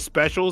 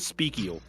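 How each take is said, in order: First: The middle consonant is a soft 'sh' sound. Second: The middle consonant is a hard 'k' sound. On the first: "instead of special" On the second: "there should be a s- like speakial"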